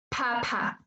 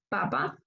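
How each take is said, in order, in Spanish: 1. La p se libera con una fuerte bocanada de aire. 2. La p se libera sin bocanada de aire. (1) "como debería pronunciarse en inglés ... estoy botando mucho aire" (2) "Yo voy a decir papa en español. ... No se mueve"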